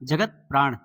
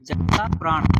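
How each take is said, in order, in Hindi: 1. पहला शब्द बिना स्वर वाले 't' की आवाज़ पर खत्म होता है। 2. पहला शब्द लंबे 'aa' स्वर पर खत्म होता है। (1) "और सही वाक्य क्या होगा" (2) "क्या होगा"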